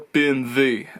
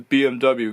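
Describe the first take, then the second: First: The letters are said with German letter names. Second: The letters are said with English letter names.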